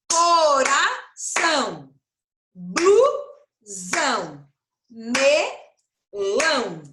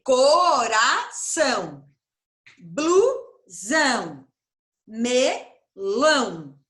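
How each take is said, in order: First: "Coração", "Blusão", "Melão" each split into slow, drawn-out syllables. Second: "coração", "blusão", "melão" split a second way into slow, drawn-out syllables; alternative syllable split. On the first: Teacher to pupils, showing how to split words into syllables, drawn out slowly. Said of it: "separar as palavrinhas em sílaba". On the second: Teacher to pupils, giving another way to split into syllables, slow. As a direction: split "coração" the other way, slowly and clearly. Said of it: "Ou então eu posso fazer". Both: Shown as a demonstration.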